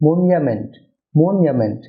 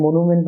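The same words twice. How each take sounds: First: "মনুমেন্ট" as MON-ya-ment, with a y glide; correct pronunciation. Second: "মনুমেন্ট" as mo-nu-ment, plain "nu"; common mispronunciation. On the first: Teacher models the correction, "মনুমেন্ট" said MON-ya-ment. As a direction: say "মনুমেন্ট" with "nya" for "nu". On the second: Teacher quotes the usual mistake, "মনুমেন্ট" said mo-nu-ment. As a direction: say "মনুমেন্ট" with a clear oo. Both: Shown as a demonstration. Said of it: "না হয়ে হবে".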